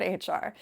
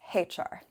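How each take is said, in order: First: "H R" with H as plain "aitch"; American aitch. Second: "H R" with H as "haitch"; British haitch. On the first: The way she would not say it at the HR job. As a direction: say H as "aitch", no h sound. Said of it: "not H R". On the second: Correcting herself about the HR job, "haitch". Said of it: "excuse me". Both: Shown as a demonstration.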